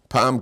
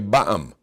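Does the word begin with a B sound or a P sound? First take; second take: P sound; B sound. First: The word begins with a P sound. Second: The word begins with a B sound. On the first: "he wants to say one time in Hebrew it's pam" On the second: "He'll say ba'am. They use a bays instead of a pay"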